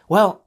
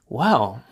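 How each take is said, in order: First: The pitch rises on the word. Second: The pitch falls on the word. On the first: The speaker wants to end the conversation. "This is rising" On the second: The speaker is interested and staying in the conversation. "This is falling, means I am interested"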